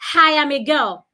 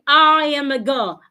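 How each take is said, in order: First: An H sound is added before the first word. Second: The first word starts with no H sound. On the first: The speaker calls it wrong. "don't say" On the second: The speaker calls it right. "there is no H in I"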